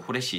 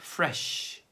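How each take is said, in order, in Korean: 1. 이 단어는 h 소리로 시작합니다. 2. 이 단어는 f 소리로 시작합니다. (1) "후레쉬나 프레쉬가 아니라" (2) "fresh입니다"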